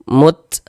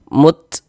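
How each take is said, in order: The two takes are said the same way.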